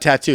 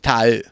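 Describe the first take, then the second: First: The middle T is crisp and clear. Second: The middle T is softened, the O's drawn out. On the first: "It's not tattoo" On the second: "You don't hit the T"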